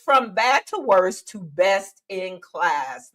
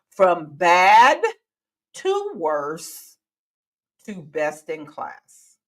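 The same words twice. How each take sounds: First: It is said at a normal pace. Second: It is said slowly.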